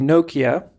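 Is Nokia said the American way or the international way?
American. Nokia is said in an American way. This is the way people in the States say it. The speaker calls it right. "remind me to say Nokia"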